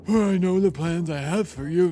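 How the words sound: It is said in a laid-back surfer-dude voice. "I call this one the Jake voice"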